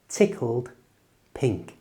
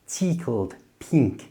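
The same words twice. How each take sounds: First: The i vowel is short and clipped. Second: The i vowel is drawn out long. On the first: The speaker calls it right. "make the letter I shorter. It's just I" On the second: The speaker calls it wrong. "in lots of your own languages you might pronounce it"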